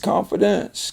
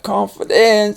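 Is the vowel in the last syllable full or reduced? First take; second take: reduced; full. First: The last syllable has a weak, reduced vowel. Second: The last syllable has a full, clear vowel. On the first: The speaker calls it right. "it's confidence" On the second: The speaker calls it wrong. "it's not confidence"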